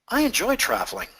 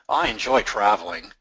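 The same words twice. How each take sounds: First: It is said in an interested tone. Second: It is said in a sarcastic tone. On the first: "Maybe a bit of interest" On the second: "It's a bit of sarcasm in there"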